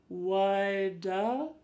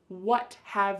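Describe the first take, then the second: First: The words blend into one reduced word. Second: Both words are said fully and separately.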